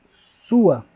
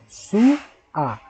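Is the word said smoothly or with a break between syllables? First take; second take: smoothly; with break. First: The word is said smoothly without any break. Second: The word is split with a pause between syllables.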